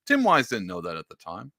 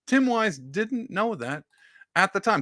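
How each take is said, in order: First: Said in the usual way. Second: High, slow, drawn-out repeat; slow high sing-song repeat; mock emphatic repeat. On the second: Shown as a demonstration. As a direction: stretch each word for effect. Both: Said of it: "repeated with emphasis".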